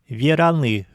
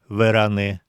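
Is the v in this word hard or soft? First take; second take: soft; hard. First: The v before e is softened. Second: The v before e stays hard. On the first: This is how most native speakers say it. "произносят «вераны»" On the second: This is the textbook pronunciation. "вместо «вераны»"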